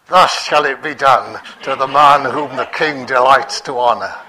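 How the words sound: It is said tensely through gritted teeth.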